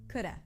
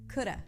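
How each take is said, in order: First: Said as coulda with a light flapped D. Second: The same.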